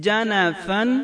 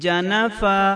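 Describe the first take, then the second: First: The word ends with an n sound. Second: The word ends with a long a sound. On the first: The reading continues past this word. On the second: The reader stops on this word.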